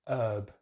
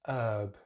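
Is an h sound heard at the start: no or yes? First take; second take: no; no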